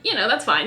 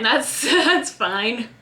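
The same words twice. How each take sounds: First: Said in the usual way. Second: Slow, breaking into a laugh; a rueful chuckle through the words. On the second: Real, not acted. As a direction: laugh it off, slowly. Repeats with a laugh.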